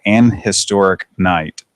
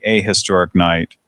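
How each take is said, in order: First: "An" held out slowly before "historic"; deliberate, slow "An historic night"; stress on AN. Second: "a" said as the letter name AY; deliberate "a historic night" with long A; full "a" before historic. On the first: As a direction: lean on the word AN. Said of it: "I said, I said". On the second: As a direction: stress the article A, pronounced ay. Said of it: "I think it would be". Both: Shown as a demonstration.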